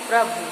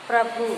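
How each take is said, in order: The two takes are said the same way.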